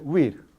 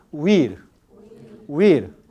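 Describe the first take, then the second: First: HUIR in one syllable, "wir"; rapid-speech pronunciation. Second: HUIR as two syllables, u-IR, loud; formal hiatus pronunciation. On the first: Teacher modelling rapid speech, HUIR with a w glide. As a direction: squeeze HUIR into a loud "wir". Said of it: "Pero en habla rápida". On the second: Teacher modelling formal speech, HUIR with hiatus. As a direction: draw HUIR out with a full u vowel. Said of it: "En habla formal siempre forma un hiato". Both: Shown as a demonstration.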